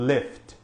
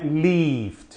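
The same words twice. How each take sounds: First: The vowel is short and closed. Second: The vowel is long and stretched, like in need. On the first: The speaker calls it right. "é um som mais fechado" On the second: The speaker calls it wrong. "não é lift, igual esses dois Es aqui"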